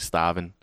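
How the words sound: It is said in an East Coast accent. "They say starving"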